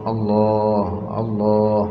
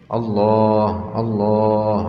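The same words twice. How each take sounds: Both takes have the same delivery.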